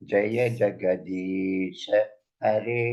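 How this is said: The phrase breaks before 'hare'. The speaker calls it right. "ஹரே தனி, ஜெகதீஷ தனி"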